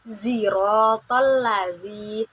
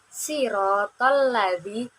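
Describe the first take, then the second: First: It begins with a z sound. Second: It begins with a plain s sound. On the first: "dengan huruf za" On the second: "menggunakan sin"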